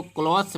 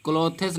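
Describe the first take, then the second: First: क्लॉथ्स as one syllable, silent E; क्लॉथ्स said "kloths", no E sound; correct reading. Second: क्लोथेस in two syllables, "klo-thes"; wrong spelled-out reading. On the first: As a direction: run the final consonants together in क्लॉथ्स. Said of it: "इसको क्लॉथ्स पढ़ते हैं". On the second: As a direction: sound the silent E inside क्लोथेस. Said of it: "क्लोथेस नहीं पढ़ते हैं". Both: Shown as a demonstration.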